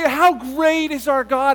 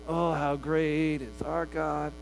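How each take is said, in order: First: It is said with sincere, heartfelt feeling. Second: It is said in a jaded, weary way.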